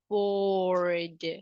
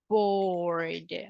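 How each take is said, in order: First: The word ends in a voiced D sound. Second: The word ends in a voiced D sound.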